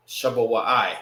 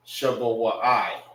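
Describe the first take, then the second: First: "Shabawai" said again at normal pace; "Shabawai" said as it is really spoken; spoken form. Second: "Shabawai" read slowly, every syllable sounded; slow spelled-out reading. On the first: Teacher repeating the word for students. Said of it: "this one loses its A". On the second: Teacher reading the written form to students. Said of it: "it'd be written like this". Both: Shown as a demonstration.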